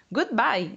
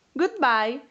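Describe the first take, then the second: First: "Goodbye" settling downward at the end; falling farewell. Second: High, lilting "Goodbye" that rises at the end; rising farewell. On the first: Frogs replying to the departing mouse, "Goodbye" with falling tune. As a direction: answer "Goodbye" with a closing fall. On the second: Mouse hopping away happily, "Goodbye" with rising tune. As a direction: sing out "Goodbye" with an upward lift. Mouse takes leave, happy. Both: Acted.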